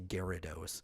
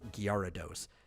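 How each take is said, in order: First: The G goes straight into the vowel. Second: A y sound follows the G. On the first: The speaker calls it wrong. "nobody pronounces the E sound in it, and they just say" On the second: The speaker calls it right. "there's a Y right after the G, and it's"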